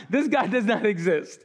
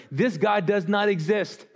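First: Said in the usual way. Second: A laugh breaks into the scoffing crowd's words; laughing through the quote. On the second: Retold or imitated. Preacher quotes doubting crowd, laughing. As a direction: chuckle while quoting the doubters.

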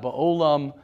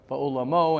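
First: Ba'olam said without the ending: ba-o-lam; ba'olam, short form. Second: Ba'olamo said with the final -mo: ba-o-la-mo; ba'olamo, full form. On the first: Rabbi contrasting word forms for his class, pronouncing ba'olam without the -mo. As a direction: cut ba'olam off after -lam, three syllables. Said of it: "and not ba'olam". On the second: Rabbi contrasting word forms for his class, pronouncing ba'olamo with its final -mo. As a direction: stress the ending of ba'olamo, four syllables. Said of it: "everybody says ba'olamo". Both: Shown as a demonstration.

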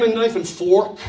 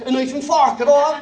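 First: "fork" with a rounded American "or"; American-accented "fork", round vowel and r. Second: "fork" said the Irish way, like "fark"; broad Irish vowel in "fork". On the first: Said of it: "I began to speak American". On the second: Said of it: "change your accent". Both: Shown as a demonstration.

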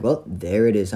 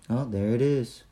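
First: Firmer, livelier echo of the clerk; pointed retort. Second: Imitating a bored monotone, softly. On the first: Retold or imitated. Customer echoing the clerk's discovery, as a pointed retort. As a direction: throw the words back with emphasis. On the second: Clerk finding it five seconds later, very monotone. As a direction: say it softly with no lift at all. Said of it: "Like, very monotone".

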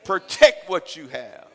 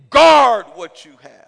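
First: Slow loud exhortation. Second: Much louder, slow and heavy; booming slow command. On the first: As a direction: punch each word, slow. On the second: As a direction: roar it as an order. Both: Real, not acted. Preaching exhortation.

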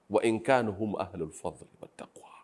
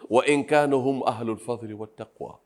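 First: Whispered aside; همس. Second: Said in the usual way. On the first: Shown as a demonstration. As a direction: whisper the phrase, then repeat it aloud. (همس خافت)

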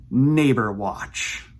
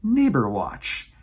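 First: Slow, grand segment title; title announcement. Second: Slow, proud title repeat; repeated title announcement. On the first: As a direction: announce it like a show name. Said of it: "a new segment that I am calling". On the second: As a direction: savor the segment name once more. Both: Shown as a demonstration.

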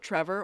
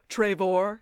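First: Said in the usual way. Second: Trevor said as "tray-VOR"; imitated old-world way of saying Trevor; character's pronunciation. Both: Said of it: "as he pronounces it".

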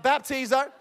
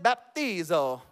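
First: Said in the usual way. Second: Lower, drawn-out Italian-accented "baptizo". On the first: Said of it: "not Italian, but baptizo". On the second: Shown as a demonstration. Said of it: "Say it in an Italian accent".

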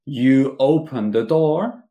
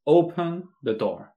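First: Slow, louder full sentence; slow full form. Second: Higher, slow commanding order; direct order. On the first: Teacher contrasting full sentence, said slowly. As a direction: stretch out you open the door. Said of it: "En vez de decir". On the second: Teacher giving the bare command, direct order. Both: Shown as a demonstration.

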